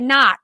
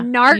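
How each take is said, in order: First: The r is dropped in a Boston accent. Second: The r is pronounced in a standard accent. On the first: "they're doing the Boston accents" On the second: "instead of a"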